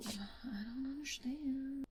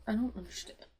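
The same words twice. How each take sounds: First: Slow, high whisper in shock; whispered disbelief. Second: Said in the usual way. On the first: Real, not acted. Reader whispers her stunned disbelief at the plot twist. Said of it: "repeated, whispered". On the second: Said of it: "repeated disbelief".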